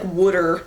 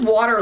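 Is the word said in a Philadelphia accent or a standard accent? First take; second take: Philadelphia; standard. First: It is said with a Philadelphia accent. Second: It is said with a standard American accent.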